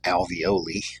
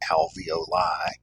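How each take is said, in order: First: The word sounds like an Italian pasta name. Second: The word does not sound like a pasta name. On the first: The speaker calls it wrong. "some people mispronounce it as alveoli, which sounds more like a something you would buy from Chef Boyardee" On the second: The speaker calls it right. "You've probably heard alveoli"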